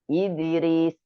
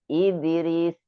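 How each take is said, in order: Both takes have the same delivery.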